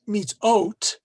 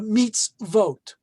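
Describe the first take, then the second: First: It is said without a v sound. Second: It is said with a v sound. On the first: The speaker calls it wrong. "not mitz, mitzot, which you normally would think it would be" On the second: The speaker calls it right. "but mitzvot"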